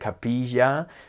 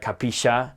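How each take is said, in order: First: The middle consonant is soft and light. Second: The middle consonant is hard and hissing. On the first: Some parts of Uruguay say it this way. "Different parts of, of Uruguay would more be like capilla" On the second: Other parts of Uruguay say it this way. "some would be like capisha and hit it hard"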